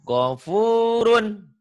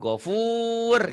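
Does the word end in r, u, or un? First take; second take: un; r. First: The word ends with an un sound. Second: The word ends on the r consonant. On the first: This is the full form, read without stopping. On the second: This is the form used when stopping on the word.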